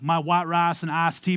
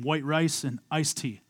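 First: It is said in a Texas country accent. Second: It is said in a more neutral accent.

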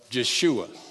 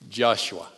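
First: The name has a Hebrew pronunciation. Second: The name has its usual English pronunciation.

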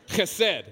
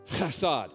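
First: The first sound is rough, from the throat. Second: The first sound is plain, not from the throat. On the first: The speaker calls it right. "It's got to come from the back of your throat" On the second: The speaker calls it wrong. "I'm sorry"

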